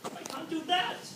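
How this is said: The stress falls on the word that. "It's on the that"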